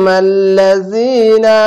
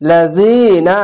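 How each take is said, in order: First: Stretched tajweed reading of মাল লাযিনা with long vowels; slow Quranic chant; slow recitation. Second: Said in the usual way. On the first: Shown as a demonstration. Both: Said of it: "এক আলিফ টেনে পড়বেন".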